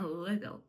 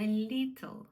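First: "little" with a firm L and short i, said low; low "little" with a hard, dark L. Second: Over-soften the first L of "little". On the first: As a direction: keep the first L of "little" unsoftened. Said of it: "дуже воно по-різному звучить". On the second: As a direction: mistaken Slavic-style "little" with ль and a long ee. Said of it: "Теж не". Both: Shown as a demonstration.

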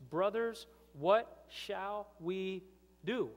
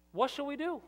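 First: A higher and louder cry of "Brothers, what shall we do"; anguished cry. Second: Much higher, louder "What shall we do?"; emphatic repeat. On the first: Crowd crying out to Peter, anguished and loud. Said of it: "they said to Peter". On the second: Pastor repeating the crowd's question, louder and higher. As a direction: hurl the question back at them. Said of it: "repeated for emphasis". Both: Acted.

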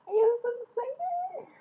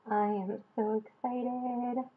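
First: Very high, teary squeal of joy; overwhelmed fan squeal; excited squeal. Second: Said in the usual way. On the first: Real, not acted. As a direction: squeal it, near happy tears. Unboxing her Army Bomb.

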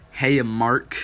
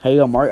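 First: Said in the usual way. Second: Louder hail to a viewer; calling out. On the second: Real, not acted. Hailing a viewer named in chat, louder. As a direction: call him across the room.

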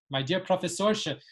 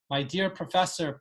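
First: My dear Professorsche, with the ending said as sh; Professorsche, Yiddish style with sh. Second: Said in the usual way. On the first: Shown as a demonstration. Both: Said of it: "with that sh ending".

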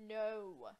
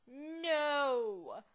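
First: A contained, dismayed no; mock dismay. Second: Loud, drawn-out mock-anguished cry; dramatic wail. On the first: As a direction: disbelief before the big outburst. First, milder take of the cry. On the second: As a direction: wail it out at full volume. Louder repeat, croissant stolen.

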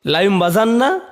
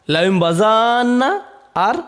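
First: Said in the usual way. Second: বাজান্না slowed, final vowel held long; drawn-out reading. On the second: Shown as a demonstration. Teacher shows the long qira'at, বাজান্না held out slowly. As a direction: stretch বাজান্না with an extra alif. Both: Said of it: "এর তিনটি কেরাত আছে".

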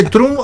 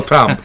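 First: First "Trump" said as "troom"; Spanish-style pronunciation. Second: Second "Trump" said as "tramp"; pronounced with A. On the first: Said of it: "¿Y dice Trump o Trump?". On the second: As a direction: say Trump with an open A. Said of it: "como si fuera una A". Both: Shown as a demonstration.

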